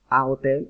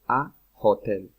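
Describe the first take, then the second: First: The h at the start is silent. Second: The h at the start is breathed out. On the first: The speaker calls it wrong. "en inglés no se dice a hotel" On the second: The speaker calls it right. "es a hotel. ¿Listo? Con J"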